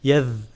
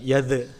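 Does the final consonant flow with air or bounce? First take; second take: flows; bounces. First: The final consonant flows with continuous airflow. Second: The final consonant ends with a bouncing release. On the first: The speaker calls it right. "masih ada udara keluar dari sela-sela gigi" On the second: The speaker calls it wrong. "tidak memantul, bukan yadh"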